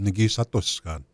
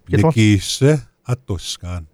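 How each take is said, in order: First: The short i vowel is dropped. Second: The short i vowel is fully pronounced. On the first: "But we don't enunciate that short I" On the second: "That's the proper way"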